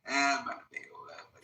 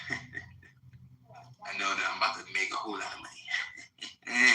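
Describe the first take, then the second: First: Fast and higher, laughing; excited laughing. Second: Slow, laughing through the words. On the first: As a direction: rattle it off gleefully, laughing. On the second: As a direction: chuckle it out slowly, savoring it. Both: Real, not acted. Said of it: "I'm smiling from ear to ear".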